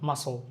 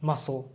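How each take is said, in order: No difference in how they are said.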